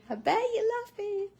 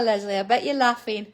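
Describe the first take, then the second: First: Much higher, playful teasing repeat; teasing sing-song. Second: Said in the usual way. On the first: Real, not acted. Teasing Leslie that she's laughing, playful sing-song. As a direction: lift it up high to tease her.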